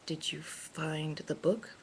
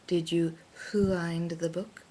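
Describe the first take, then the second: First: It is said with plain English sounds. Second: It is said with a thick Japanese accent.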